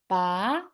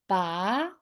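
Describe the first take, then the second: First: The pitch rises from middle to high. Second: The pitch rises from middle to high.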